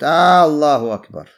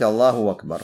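First: The first vowel of 'akbar' is lengthened. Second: The glottal stop before 'akbar' becomes a w sound. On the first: The speaker calls it wrong. "Удлиняют «хамзу» в начале" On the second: The speaker calls it right. "можно заменить эту гамзу вау и сказать Аллаху Акбар"

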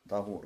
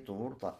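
First: The first vowel is an 'a' sound. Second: The first vowel is a 'u' sound. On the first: It means the water used for purification. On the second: It means the act of purification.

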